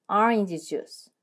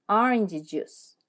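No difference in how they are said.

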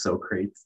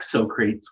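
First: The name is sounded out literally, as spelled. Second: The name is said in its conventional pronunciation. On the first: The speaker calls it wrong. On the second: The speaker calls it right.

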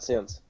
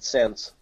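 First: The vowel sounds like the i in sit. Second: The vowel sounds like the e in bed. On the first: This is the expected pronunciation. "Not since" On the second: Someone else said it this way with an accent. "you said sense"

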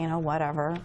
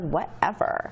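First: It is said flatly, sounding bored and indifferent. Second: It is said with attitude and dramatic flair. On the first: The speaker does not care. "will sound kind of bored or indifferent" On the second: The speaker is showing sass toward someone. "a little bit more attitude, ... more dramatic flair"

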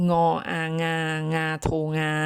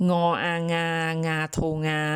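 No difference in how they are said.

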